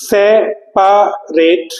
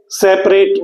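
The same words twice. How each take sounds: First: separate very slowly as se, pa, rate; syllable by syllable. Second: Said in the usual way. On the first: Shown as a demonstration. Teacher revealing the spelling through sounds, syllable by syllable. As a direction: break separate into three sounds with clear pauses, full middle pa. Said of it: "words को आप तोड़ेंगे syllable". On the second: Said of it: "हम यदि separate बोलते हैं".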